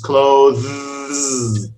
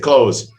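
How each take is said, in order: First: It is said slowly with the th sound. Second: It is said quickly without the th sound. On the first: "If you say it slowly, the proper pronunciation" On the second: "even Westerners say clothes. They don't bother putting the th in there"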